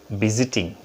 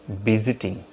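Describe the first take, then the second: No difference in how they are said.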